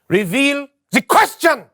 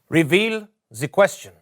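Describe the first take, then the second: First: It is said with high energy. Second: It is said with low energy.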